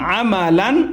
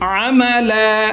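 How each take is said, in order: First: The word ends with the nasal syllable "an". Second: The word ends with a long drawn "a". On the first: The reading continues without stopping. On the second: The reader stops at this word.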